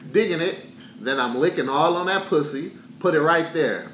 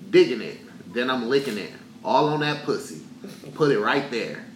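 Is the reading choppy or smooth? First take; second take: smooth; choppy. First: It is read smoothly, with flowing rhythm. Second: It is read in choppy, broken phrases.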